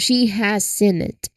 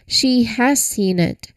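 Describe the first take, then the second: First: The word has is said lightly, unstressed. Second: The word has carries strong stress. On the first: A plain statement of fact. "usually spoken lightly" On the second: It corrects someone who claimed she hadn't. "Suddenly has become the star of the show"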